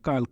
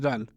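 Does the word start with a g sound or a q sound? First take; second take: q sound; g sound. First: The word starts with a deep q sound. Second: The word starts with a voiced g sound. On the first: "काफ से लिखा जाता है" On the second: "ये लोग काफ को गाफ की तरह पढ़ते हैं"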